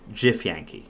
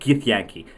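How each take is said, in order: First: The word begins with a j sound. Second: The word begins with a hard g sound. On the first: The speaker calls it right. "It's Jifyanki" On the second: The speaker calls it wrong. "It's not Githyanki"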